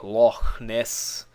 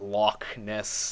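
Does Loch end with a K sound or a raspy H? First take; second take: raspy H; K sound. First: Loch ends with a raspy throat sound. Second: Loch ends with a hard K sound. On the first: The speaker calls it right. "is actually pronounced that, that way" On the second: The speaker calls it wrong. "not Loch Ness"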